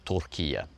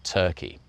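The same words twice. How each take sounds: First: Turkiye said the Turkish way, ending kee-yeh; native pronunciation. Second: Said in the usual way. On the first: Shown as a demonstration. Activist shows the pundits' new name, Turkiye said the Turkish way. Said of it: "the pundits are saying Turkiye instead of Turkey". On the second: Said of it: "saying Turkiye instead of Turkey".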